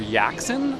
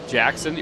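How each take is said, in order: First: The name begins with a soft Y sound. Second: The name begins with a hard J sound. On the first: The speaker calls it right. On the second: The speaker calls it wrong.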